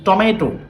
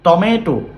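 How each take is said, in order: No difference in how they are said.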